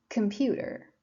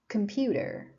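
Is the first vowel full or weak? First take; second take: weak; weak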